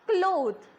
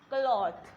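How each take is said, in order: First: The vowel is a short o sound. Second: The vowel is a long aw sound. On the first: The speaker calls it wrong. "which is not correct" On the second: The speaker calls it right. "instead of O, we are going to use A W"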